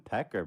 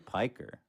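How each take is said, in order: First: The first syllable sounds like 'peck'. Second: The first syllable sounds like 'pike'. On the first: This is how someone else mispronounced it. The speaker calls it wrong. "he called them Pecker" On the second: This is the name's real pronunciation. The speaker calls it right. "but it's obviously Piker"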